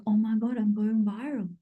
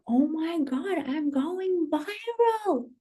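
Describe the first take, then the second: First: Said in the usual way. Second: High, slow, drawn-out gushing; excited squeal. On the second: Retold or imitated. Creator re-enacting her shock at going viral, excited squeal. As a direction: stretch VIRAL out long and high. Repeated reaction, heightened.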